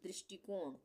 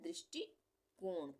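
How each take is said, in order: First: Said in the usual way. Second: दृष्टिकोण slowly in two parts, drishti, pause, kon; split in two. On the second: Shown as a demonstration. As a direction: break दृष्टिकोण after दृष्टि, then say कोण. (दृष्टिकोण को दो भागों में, दृष्टि... कोण) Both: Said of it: "दो भागों में हम".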